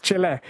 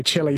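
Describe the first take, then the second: First: "Chile" ending in an open eh; correct Chile. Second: "Chile" ending in an ee sound; mispronounced Chile. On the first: Radio host correcting an old habit, Chile with final eh. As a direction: say "Chile" as CHIL-eh, not chilli. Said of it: "often mispronounced country of Chile". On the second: Radio host owning up to old mistake, mispronounced Chile with final ee. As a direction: say "Chile" just like chilli. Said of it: "I used to say Chile sometimes". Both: Shown as a demonstration.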